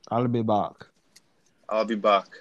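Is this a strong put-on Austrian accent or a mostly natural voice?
put-on accent. It is said in a strong Austrian-style impression. "I'll go as far as saying I'll be back"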